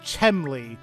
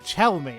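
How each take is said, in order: First: The M sound comes before the L sound. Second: The L sound comes before the M sound. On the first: The speaker calls it wrong. "I kept saying Chemley, like where the the M was before the L" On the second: The speaker calls it right. "but it's Chelme"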